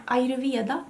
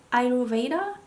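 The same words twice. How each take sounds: First: Ayurveda said the Swedish way, ending in -veda with a v; Swedish pronunciation. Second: Ayurveda tried the English way, "ai-ro-VAY-da"; attempted English pronunciation. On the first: Beauty vlogger showing viewers the Swedish name, Swedish pronunciation of Ayurveda. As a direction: say Ayurveda as in Swedish, "ai-ree-vee-a-da". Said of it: "That's how you would say it in Swedish". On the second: Has no idea of the English name, tentative English pronunciation of Ayurveda. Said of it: "how to say it in English". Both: Shown as a demonstration.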